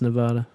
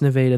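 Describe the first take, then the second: First: It is pronounced the way Nevada state says it. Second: It is pronounced the local Missouri way. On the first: It names the western state. "there it's Nevada" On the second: It names the town in Missouri. "Here it's Nevada"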